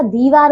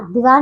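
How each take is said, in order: First: दीवार with a long "dee"; correct pronunciation. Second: दीवार with a short first vowel: divaar; mispronunciation. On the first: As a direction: stretch the first vowel of दीवार. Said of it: "दीवार होता है". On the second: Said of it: "दीवार नहीं होता". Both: Shown as a demonstration.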